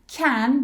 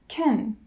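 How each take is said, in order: First: The word is said in its full form. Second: The word is said in a reduced form.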